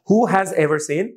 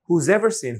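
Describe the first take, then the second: First: Has is said as a separate full word. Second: Has is contracted onto who as who's. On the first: "হু হ্যাজ ever হয়ে যাচ্ছে" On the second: "হুজ ever"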